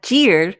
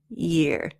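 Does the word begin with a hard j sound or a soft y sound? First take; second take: hard j; soft y. First: It begins with a hard j sound. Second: It begins with a soft y sound. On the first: The speaker calls it wrong. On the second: The speaker calls it right.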